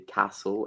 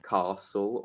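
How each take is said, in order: First: It is said in a West Midlands accent. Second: It is said in an Oxford accent. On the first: "I say castle and bath, ... hint that I'm from the West Midlands" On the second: "I don't say castle or bath"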